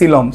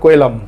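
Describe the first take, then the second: First: The word begins with an s sound. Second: The word begins with a k sound. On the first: The speaker calls it right. "এটা actually উচ্চারণ হচ্ছে সিলম" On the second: The speaker calls it wrong. "আমরা এটাকে উচ্চারণ করছিলাম কোয়েলম"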